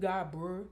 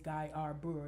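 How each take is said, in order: First: The name is said in a clipped local way. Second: The name is said in a careful standard way. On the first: "it's Godboro" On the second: "If you want to be Anglo-Saxon"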